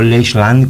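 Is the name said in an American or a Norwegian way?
American. The name is said in an American way. The speaker calls it wrong. "como yo lo americanicé"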